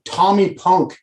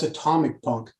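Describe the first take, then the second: First: "Tommy Punk" said as two words, Tommy then Punk; name "Tommy Punk" like a person's name; misheard song title. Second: "Atomic Punk", low and quiet, starting on an A; low, soft correction to "Atomic Punk"; correcting the title. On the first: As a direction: say "Tommy Punk" with no leading A and no final c. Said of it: "I said something stupid too". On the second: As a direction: say "Atomic Punk" with the c heard before Punk. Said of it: "He goes, "That's Atomic Punk". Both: Retold or imitated.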